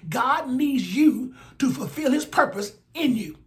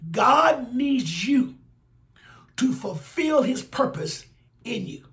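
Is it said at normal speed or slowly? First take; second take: normal speed; slowly. First: It is said at normal speed. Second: It is said very slowly.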